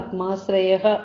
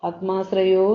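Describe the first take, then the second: First: The word ends with an 'ah' and breath. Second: The word ends with an 'o' sound. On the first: The word stands alone, split from the next word. The speaker calls it right. "ആത്മാശ്രയഃ വെച്ചാണ് പിരിക്കേണ്ടത്" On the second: The word is joined to the next word. The speaker calls it wrong. "ആത്മാശ്രയോ എന്നല്ല"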